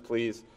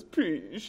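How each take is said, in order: First: Said in the usual way. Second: Small, soft mock-tearful "please" with a wavering pitch; tearful toddler plea. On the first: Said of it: "you know, and says". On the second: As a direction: imitate a crying toddler giving in. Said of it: "She, in tears, just says".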